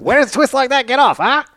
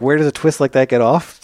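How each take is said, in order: First: High-pitched forties bad-guy gangster voice; hammed-up tough guy from a forties picture. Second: Said in the usual way. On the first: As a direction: do an old-movie gangster, pushed way up high. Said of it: "forties bad guy gangster". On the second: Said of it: "What do you mean, like".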